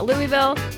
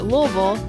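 First: It is pronounced a common non-local way. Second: It is pronounced the local Kentucky way. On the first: This is an acceptable outsider's version. "you might call it" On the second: This is how locals say the name. "as Kentuckians pronounce it"

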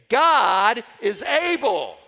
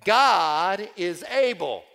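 First: It is said with strong, believing conviction. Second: It is said in a plain, casual way.

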